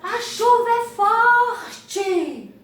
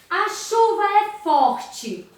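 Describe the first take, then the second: First: It is said loudly with strong emphasis. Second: It is said in a calm, even voice. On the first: It exclaims about the fact. "está exclamando, falando em altos sons, com ênfase" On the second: It simply states a fact. "Está afirmando"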